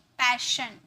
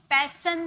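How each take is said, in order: First: The middle consonant is an sh sound. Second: The middle consonant is a plain s sound. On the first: The speaker calls it right. "श में pronounce करते हैं" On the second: The speaker calls it wrong. "पैसन नहीं"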